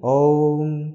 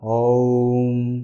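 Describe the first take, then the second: First: Om is said at its quickest. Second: Om is said quickly. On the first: "और जल्दी" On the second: "जल्दी जल्दी करूं या fast करूं तब होगा"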